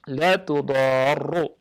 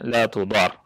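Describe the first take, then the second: First: The doubled r ends with a u vowel. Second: The r ends with no vowel after it. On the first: It is a negation: not. "bi dhammi ar-ra al-musyaddadah" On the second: It is a prohibition: must not harm. "dengan mensukunkan huruf ra"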